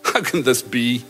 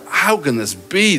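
First: It sounds doubtful and cynical. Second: It sounds amazed and full of wonder.

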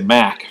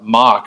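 First: The word rhymes with 'back'. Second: The word rhymes with 'rock'. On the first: "I always say Mac for Mercurial" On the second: "I heard you say earlier, mock"

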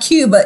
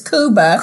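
First: Cuba is said with an English pronunciation. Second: Cuba is said with the local pronunciation. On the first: The speaker calls it wrong. "Oh, I said that wrong. It's not Cuba" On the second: The speaker calls it right. "it's Cuba"

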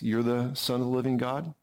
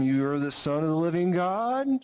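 First: It is said with calm, steady confidence. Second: It is said hesitantly, like a question.

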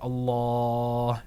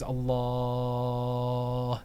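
First: The long vowel is held about four seconds. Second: The long vowel is held about six seconds. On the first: "You can make it 4 seconds" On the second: "And you can make it 6 seconds"

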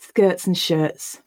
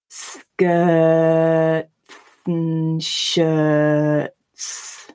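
First: It is read quickly with reduced t sounds. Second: It is read slowly with clear t sounds. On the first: "Now we're going to read it at normal speed" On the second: "when I'm reading it more slowly"

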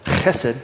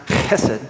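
First: The word starts with a rough, throaty sound. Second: The word starts with a rough, throaty sound.

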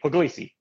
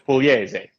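First: The name is said with English pronunciation. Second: The name is said with Italian pronunciation. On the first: This is the form given to everyone else. "but I tell everybody Pugliese" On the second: This is the original form of the name. "My name is Pugliese"

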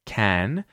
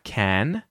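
First: The vowel is a full, open a sound. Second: The same.

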